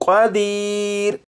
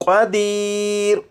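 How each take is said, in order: The two takes are said the same way.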